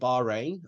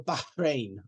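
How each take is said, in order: First: It is said with an everyday English pronunciation. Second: It is said with an imitated local pronunciation. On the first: This is how most English speakers say it. The speaker calls it right. "like most of us would" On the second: It tries to say the name properly, as locals would. The speaker calls it wrong. "or something weird"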